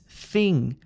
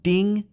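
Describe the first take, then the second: First: The word begins with a th sound. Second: The word begins with a d sound. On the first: The speaker calls it right. "It's thing" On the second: The speaker calls it wrong. "This sound is not a d sound. It's not ding"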